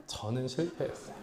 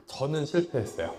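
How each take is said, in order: First: "저는 실패했어요" repeated much softer, fading, with a small rise at the end; soft echo. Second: Said in the usual way. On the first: Real, not acted. Preacher repeating his confession of failure, hushed and soft. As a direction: let "저는 실패했어요" fall away to a hush.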